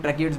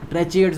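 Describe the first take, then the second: First: ट्रेकिएट्स with a hard "k" in the middle; ट्रेकिएट्स as "tre-ki-ets"; hard-k pronunciation. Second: ट्रेचिएट्स with a "ch" sound in the middle; ट्रेचिएट्स as "tre-chi-ets", the variant some people use; alternative pronunciation. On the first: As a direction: say ट्रेकिएट्स with "ki", not "chi". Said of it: "ट्रेकिएट्स बोलते हैं". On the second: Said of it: "बोलते हैं कई लोग". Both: Shown as a demonstration.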